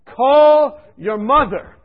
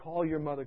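First: Slow, loud, high booming command; voice from above. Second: Soft inner voice, barely said; quiet remembered voice. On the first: A mystic voice ordering him to call his mother, slow and booming. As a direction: call out like a voice from heaven. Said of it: "this voice came to me". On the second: The inner voice returning, softly. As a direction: let it come softly. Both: Retold or imitated.

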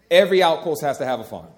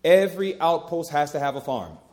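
First: Every word driven home louder; preacher repeating his point with louder force; louder emphatic repeat. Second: Said in the usual way. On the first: Shown as a demonstration. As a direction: hammer the point the second time. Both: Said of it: "repeated with more force".

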